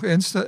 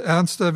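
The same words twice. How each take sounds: First: "ernster" cut short to "ernst", the last syllable dropped; a slip of the tongue, "ernster" left unfinished; clipped slip. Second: Said in the usual way. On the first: Shown as a demonstration. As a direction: stumble on "ernster", saying only "ernst".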